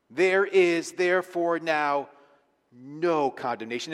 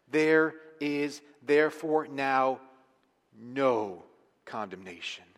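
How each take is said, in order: First: Slow, weighty, THERE lifted and NO stressed; emphatic reading. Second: Slow and weighty, lean on THERE and NO; There is therefore now no condemnation, spaced out and grave; slow solemn emphasis. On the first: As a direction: read There is therefore now no condemnation slow and firm. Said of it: "how emphatic he's saying it here". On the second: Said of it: "I want to say this emphatically". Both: Shown as a demonstration.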